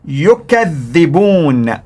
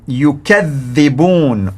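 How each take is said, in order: First: The word is pronounced in the Warsh reading. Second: The word is pronounced in the Warsh reading.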